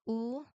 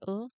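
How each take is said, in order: First: The vowel is held for a long time. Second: The vowel is cut off quickly.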